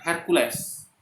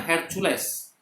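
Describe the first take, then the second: First: "Hercules" as HER-KYU-LEEZ, slowly; slow western "Hercules"; English pronunciation. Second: "Hercules" read as HER-CHU-LES, letter by letter; the local reading of "Hercules" with a CH; "Hercules" the Indonesian way, raised. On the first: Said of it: "Orang Barat akan, eh, mengatakan". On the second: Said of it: "Kalau kita ngomongnya". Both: Shown as a demonstration.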